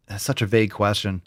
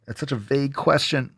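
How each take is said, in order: First: Said in the usual way. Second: Exasperated aside. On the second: Shown as a demonstration.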